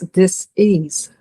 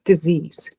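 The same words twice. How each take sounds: First: The word is split into two separate parts. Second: The word is said smoothly as one unit. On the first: A lack of ease rather than an identifying label. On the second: An illness.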